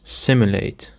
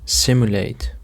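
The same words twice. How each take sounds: First: Simulate with the weight on SIM; stress on first syllable. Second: Simulate with the stress on SIM; stress on first syllable. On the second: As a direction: hit SIM in Simulate, the rest lighter. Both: Shown as a demonstration. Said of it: "The stress on the first syllable".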